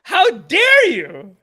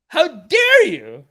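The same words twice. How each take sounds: First: Slow, loud 'How dare you?' ending on a rise; mock outrage. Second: Slow, loud 'How dare you?' falling to a firm end; mock outrage. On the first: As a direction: ask 'dare' like an offended question. Repeated mock outrage, rising. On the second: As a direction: land 'dare' hard and let it drop.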